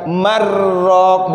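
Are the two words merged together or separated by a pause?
merged. The two words run together without a stop. The speaker calls it wrong.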